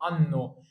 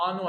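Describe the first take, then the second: First: انو slowly, holding the doubled N; correct double N. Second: انو with long first vowel, short N; wrong single N. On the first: Teacher praises and confirms, slow انو with doubled N. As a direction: lean on the long N in انو. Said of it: "اتنين ان يا بطل". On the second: Teacher offers student the wrong choice, انو with single N. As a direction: say انو with only one N. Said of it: "انو ولا انو". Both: Shown as a demonstration.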